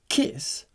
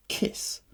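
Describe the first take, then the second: First: Higher, startled questioning word; involuntary cry. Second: Said in the usual way. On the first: A narrator's reading. Young man reading his ticket, crying out involuntarily. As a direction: blurt it out in surprise. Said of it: "I could not help crying out".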